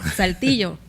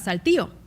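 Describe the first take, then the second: First: The double-L sound is clearly pronounced. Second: The double-L sound is dropped entirely. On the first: "en vez de Saltillo" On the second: "vamos a Saltillo"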